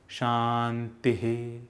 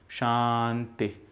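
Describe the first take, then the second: First: The word ends with a breathy echo of the vowel. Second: The word ends cut short without a final echo.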